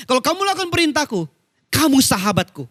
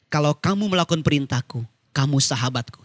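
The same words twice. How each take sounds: First: Quick, high build, then a landing; fast, raised recital driving the verse home; emphatic preaching. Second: Said in the usual way. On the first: Real, not acted. Verse repeated forcefully for emphasis. (ayat diulang cepat dengan nada tinggi)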